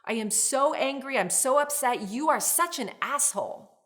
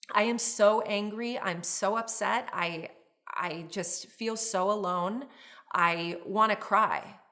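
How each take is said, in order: First: Loud, high, heated blaming; raised angry voice, accusing; angry outburst. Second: Honest upset without attack; vulnerable, a touch teary; hurt, open feelings. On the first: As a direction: snap at your partner in anger. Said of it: "Emotions driving is when you say something like". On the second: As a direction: share the hurt, don't throw it. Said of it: "Emotions in the vehicle, you're expressing your emotions". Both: Shown as a demonstration.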